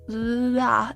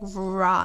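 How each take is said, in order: First: It starts with a sound between R and L. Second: It starts with a clear English R sound. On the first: The speaker calls it right. "it becomes like la la" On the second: The speaker calls it wrong. "not not that, not not not that R"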